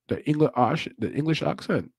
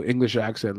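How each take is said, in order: First: Halting stab at an English accent; attempted English accent. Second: Said in the usual way. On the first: Shown as a demonstration. Commentator trying out the fighter's accent, attempted English accent. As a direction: try English vowels, "accent" as "ahk-sent". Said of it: "I try to just do it".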